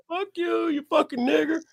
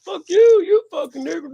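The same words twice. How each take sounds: First: High-pitched, held-back mock taunt; hostile stranger. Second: High and loud retold yell; shouting stranger. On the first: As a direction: sneer it high, not yet at full volume. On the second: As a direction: let it rip, louder, like a man losing it. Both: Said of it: "He's like".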